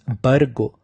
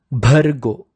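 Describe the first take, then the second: First: "Bhargo" with plain b, no puff of breath; wrong-way demo of "Bhargo" with unaspirated b; unforced b. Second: Slow "Bhargo" with a strong breathy Bh; emphatic "Bhargo", Bh heavily aspirated; forced aspirated bh. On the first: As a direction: drop the aspiration, saying "Bhargo" as "Bargo". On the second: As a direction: push a puff of air into the Bh of "Bhargo". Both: Shown as a demonstration. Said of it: "it should not be pronounced as".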